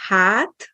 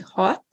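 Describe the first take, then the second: First: Hát with a long open "aah". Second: Hot with a short rounded Hungarian a. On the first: Teacher gives another vowel pair, long á. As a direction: stretch the á in hát. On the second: Teacher gives another vowel pair, short a. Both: Shown as a demonstration. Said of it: "Another example of a pair".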